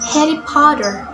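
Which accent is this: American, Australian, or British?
American. It is spoken with an American accent. "In American accents"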